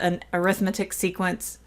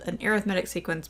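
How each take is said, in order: First: Arithmetic is stressed on its second syllable. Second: Arithmetic is stressed on its third syllable. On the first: The speaker calls it wrong. "I have never heard it called an arithmetic sequence" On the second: The speaker calls it right. "I've only ever called it heard it called an arithmetic sequence"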